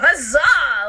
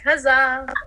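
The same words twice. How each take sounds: First: It is said with excited enthusiasm. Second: It is said in a flat, nonchalant way.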